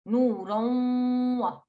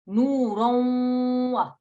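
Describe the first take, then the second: First: The nasal sound before wa is held for two counts. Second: The nasal sound before wa is held for two counts.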